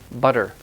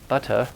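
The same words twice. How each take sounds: First: The middle consonant is a quick d-like tap. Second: The middle consonant is a clear t sound. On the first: "in American English, we say butter" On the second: "in British English, you would say butter"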